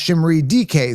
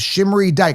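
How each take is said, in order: First: The surname is said as two syllables. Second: The surname is said as one syllable. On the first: The speaker calls it wrong. "not Shimmery D K" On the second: The speaker calls it right. "So that's how you pronounce it"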